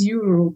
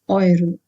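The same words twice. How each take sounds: First: The word starts with a yoo sound. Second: The word starts with an oi sound. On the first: This is the English way of saying it. "In English, we call it as euro" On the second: This is the German way of saying it. "in German called euro"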